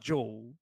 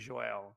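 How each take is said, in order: First: The name is said with English pronunciation. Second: The name is said with Portuguese pronunciation. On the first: The speaker calls it wrong. "it's not Joel" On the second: The speaker calls it right. "the actual pronunciation in my in Portuguese would be Joel"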